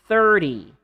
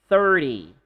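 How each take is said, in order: The two takes are said the same way.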